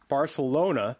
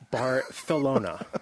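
First: The c is said as a plain s sound. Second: The c is said as a lisped th sound. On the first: The speaker calls it wrong. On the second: The speaker calls it right.

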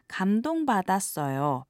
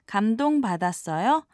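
First: The voice falls at the end. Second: The voice rises at the end.

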